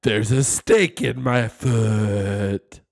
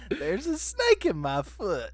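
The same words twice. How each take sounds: First: Slow, louder Woody line; pull string toy. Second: Higher, slow Woody impression; pull string toy. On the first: Retold or imitated. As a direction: drag out the toy's catchphrase. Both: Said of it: "That's his classic line".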